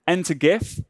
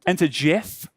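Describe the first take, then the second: First: "gif" with a hard g, as in "gift"; mispronounced hard g. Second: "gif" with a soft g, like "jif"; corrected soft g. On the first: Coach slipping up in the recap, "gif" with hard g. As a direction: say "enter gif" with g as in "give". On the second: Coach correcting the slip, "gif" said as "jif". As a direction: say "Enter gif" with g as a j sound. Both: Real, not acted. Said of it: "I'm saying it wrong again".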